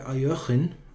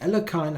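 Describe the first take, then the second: First: The name is said like 'Aljochin'. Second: The name is said in an anglicized way. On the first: The speaker calls it right. "the right one is somewhat like Aljochin" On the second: The speaker calls it wrong. "Alekhine I cannot do"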